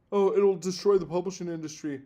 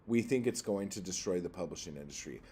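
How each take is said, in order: First: Mocking whine. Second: Said in the usual way. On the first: Mocking the industry's claim.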